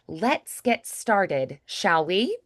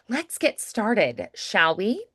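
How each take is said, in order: First: It is said at a slower pace. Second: It is said at a faster pace.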